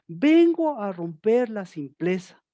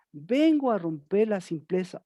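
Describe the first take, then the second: First: Shouting God's words. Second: Said in the usual way. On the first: Retold or imitated. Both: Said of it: "les estaba gritando".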